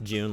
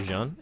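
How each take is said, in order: First: The name is said like the English month. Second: The name is said with a French pronunciation. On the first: "Just June, like the month, is fine" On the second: "if you want to be pretentious, you can go Jean"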